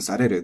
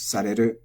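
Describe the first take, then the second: First: The word has a pitch accent with a drop. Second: The word is flat with no pitch drop. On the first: The speaker calls it wrong. "This does not become sareru" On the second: The speaker calls it right. "because it's flat"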